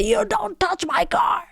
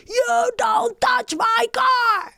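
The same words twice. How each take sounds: First: High-pitched yell, held back in volume; re-enacted scream. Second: High, drawn-out scream of warning; re-enacted scream. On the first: Driver repeating the warning to a surprised cyclist, high mock scream. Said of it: "I can scream as well". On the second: Driver screaming at the man who knocked, high drawn-out yell. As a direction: scream it slowly, far up in pitch. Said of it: "I can also scream".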